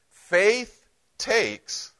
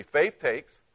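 First: "Faith takes" with Faith pitched high and held; emphatic lead line. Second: Said in the usual way. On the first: Shown as a demonstration. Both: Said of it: "say this with me".

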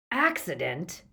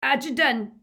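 First: "Accident" echoed as a mocking question; mock disbelief on "Accident", ending upward; jeering echo. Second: "Accident" high, loud and thick-tongued; "Accident" with mushy, stuffed-up consonants; mouth full of blood. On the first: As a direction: repeat "Accident" clearly with a sceptical rise. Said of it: "There was more jeering laughter". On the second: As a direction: blurt "Accident" through a bleeding mouth. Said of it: "his mouth was full of blood". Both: A narrator's reading.

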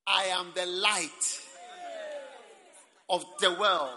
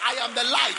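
First: Slow and louder, each word weighed; slow loud proclamation. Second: Higher and much louder, thrilled; excited loud proclamation. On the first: Preacher quoting Jesus to the congregation, slow loud proclamation. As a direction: proclaim it to the whole hall. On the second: Preacher marvelling at the claim before the church, excited loud cry. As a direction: shout it in wonder. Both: Acted.

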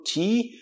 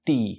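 First: "ti" as "chee"; softened T. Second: "ti" as a crisp "tee"; hard T. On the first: Teacher asking how to pronounce T, "ti" as "chee". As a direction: palatalize "ti" into "tchi". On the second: Teacher offering the alternative, "ti" as "tee". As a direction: tap the tongue on the teeth for "ti". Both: Shown as a demonstration. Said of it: "Como é que eu pronuncio".

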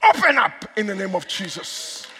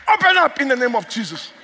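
First: Said in the usual way. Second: Raised, insistent preacher's command; forceful command. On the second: Real, not acted. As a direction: order the doors open with more force. Repeats the command with more force.

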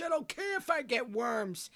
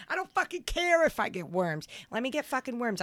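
First: Slower, higher, carefree declaration; don't care, savor every word; defiant glee. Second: Defiant outburst. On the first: To cohost, defending raw steak with high glee. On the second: Defiant rant about raw steak. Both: Real, not acted.

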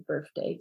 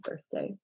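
First: "birthday" as "birfday", with F for TH. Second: Said in the usual way. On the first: Shown as a demonstration. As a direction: put an F in the middle of "birthday". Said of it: "people will substitute a f". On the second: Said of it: "instead of birthday".

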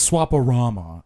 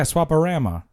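First: "Swaparama" with a broad AH in RAMA; posh pronunciation. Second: "Swaparama" with a flat A in RAM; Chicago pronunciation. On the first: Mocking Prince of Wales talk, broad-AH "Swaparama". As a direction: say "Swaparama" as swap-a-RAH-ma. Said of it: "you the Prince of Wales". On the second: Proving the local accent, flat-A "Swaparama". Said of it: "you have a Chicago accent". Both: Shown as a demonstration.

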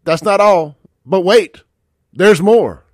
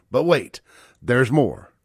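First: Loud pitchman hype, louder; infomercial. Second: Said in the usual way. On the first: Shown as a demonstration. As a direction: sell it like a TV ad host. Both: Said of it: "Like I'm selling you a ShamWow here".

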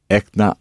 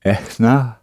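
First: إحنا with a hard k-like middle; missing h. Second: إحنا with an airy h mid-word; breathed h. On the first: Real, not acted. Student attempting Arabic, missing the breathed h in إحنا. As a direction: harden the h in إحنا towards a k. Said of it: "Say it again with the h". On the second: Shown as a demonstration. Student retrying after correction, breathed h in إحنا. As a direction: breathe the h in إحنا as if misting glasses. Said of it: "as if you're breathing on your glasses".

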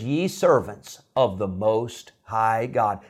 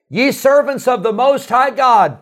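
First: Slow, drawn-out reverent title; slow solemn title. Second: High, loud call of the title; king calling out. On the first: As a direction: let the king's answer land slowly. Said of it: "Nebuchadnezzar answers his own question". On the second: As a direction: shout the title across the fire. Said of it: "He said". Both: Retold or imitated.

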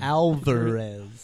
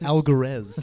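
First: "Alvarez" drawn out with a clear v; corrective pronunciation. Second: "Alvarez" with a hard g for the v; wrong pronunciation. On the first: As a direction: slowly teach "Alvarez" as "Al-ver-ez". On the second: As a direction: slowly quote "Alvarez" as "Al-guh-rez". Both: Shown as a demonstration. Correcting a mispronounced surname.

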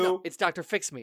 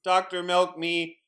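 First: "Fix Me" said firmly, corrected; correct name. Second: "Milk Me" said instead of "Fix Me"; wrong name. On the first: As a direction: insists on "Doctor Fix Me", stressing Fix. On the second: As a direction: says "Doctor Milk Me", swapping Fix for Milk. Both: Acted. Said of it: "My name is not Doctor Milk Me".

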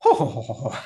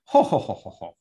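First: [name] mocking her prim titter; a teasing copy of the ladylike laugh. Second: A dainty ladylike titter; prim titter. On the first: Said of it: "he points to him and says". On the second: Retold or imitated. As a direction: titter politely like a lady in training. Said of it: "I'm practicing my titter".

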